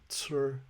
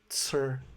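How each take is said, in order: No difference in how they are said.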